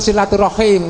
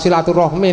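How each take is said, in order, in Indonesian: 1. Kata itu berakhir dengan bunyi 'rahim'. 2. Kata itu berakhir dengan bunyi 'rahmi'. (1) "yang betul silaturahim" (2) "Ono sing ngunekke silaturahmi, ya wis ora apa-apa jane salah Pak"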